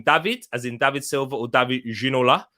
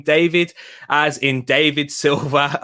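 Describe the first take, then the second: First: David pronounced "Dah-vid", with an open "ah"; exotic pronunciation. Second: Said in the usual way. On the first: Shown as a demonstration. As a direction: make David sound foreign, like "Dah-veed". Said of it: "if you say it that way he sounds more exotic". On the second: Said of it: "if you say it that way".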